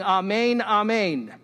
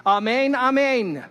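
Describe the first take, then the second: First: Louder amen, rising then falling; Jesus opening with amen. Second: High, loud and slow, intoned like a rabbi; solemn rabbi's amen. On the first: Jesus opening his teaching, an urgent summoning amen. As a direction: call the room to attention. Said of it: "starts his teaching by saying". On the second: Rabbis closing the prayer, a solemn intoned amen. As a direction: draw out each amen solemnly. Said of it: "they would say". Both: Retold or imitated.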